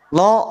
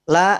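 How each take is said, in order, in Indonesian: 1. Suku kata ini tebal, dengan vokal belakang yang gelap. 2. Suku kata ini tipis, dengan vokal depan yang jelas. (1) "Dia berat. Dia tebal" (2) "La yang pertama tipis"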